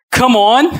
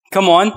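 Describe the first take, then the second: First: High, loud rising shout; loud hype shout. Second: Rising, louder call to the crowd; hyped call. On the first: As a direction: rouse the whole room. Preacher calling again, stronger. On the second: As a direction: urge the room on. Preacher calling to congregation. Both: Real, not acted.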